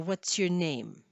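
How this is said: Flat pitch then a fall, sounding angry. The speaker calls it wrong. "if you just go straight across and then have the falling intonation, ... You sound angry"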